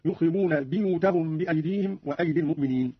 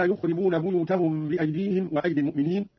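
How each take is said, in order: First: بيوتهم said with i in the first syllable, "biyutahum"; kasra in buyut. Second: Said in the usual way. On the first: Shown as a demonstration. Teacher showing Qalun's reading, بيوتهم as "biyutahum". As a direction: begin بيوتهم with "bi" instead of "bu". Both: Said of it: "قرأ قالون بكسر الياء من لفظ بيوت".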